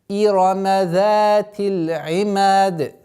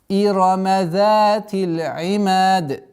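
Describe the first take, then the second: Both takes have the same delivery.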